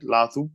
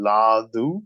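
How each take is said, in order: First: The middle consonant is a soft TH-like sound. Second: The middle consonant is a plain D. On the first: This is the speaker's preferred way. "I do a little bit of a th on it" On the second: Other people say it this way. "some friends who does like really like Ladu"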